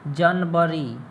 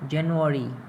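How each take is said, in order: First: The word is said in a Bihari-style pronunciation. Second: The word is said in an English-style pronunciation. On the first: The speaker calls it wrong. "तो ये Bihari style Bihar तक ठीक है" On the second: The speaker calls it right. "इस तरह से बोलोगे तब समझेगा वो"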